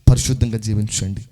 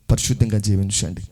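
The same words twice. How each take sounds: The two takes are said the same way.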